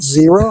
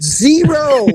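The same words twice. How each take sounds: First: Said in the usual way. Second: Zero said higher and firmer, falling; stress on Zero. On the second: Retold or imitated. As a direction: land "Zero." hard with a high fall. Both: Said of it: "I said".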